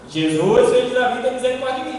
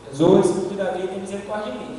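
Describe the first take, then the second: First: It is said louder, with a raised voice. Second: It is said quietly, in a low voice.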